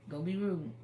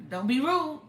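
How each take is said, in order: First: Said in the usual way. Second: High, loud parental warning; firm mock rebuke from a mother; sharp scolding. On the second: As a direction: snap it at the child like a stern mother. Mother scolding child over rudeness.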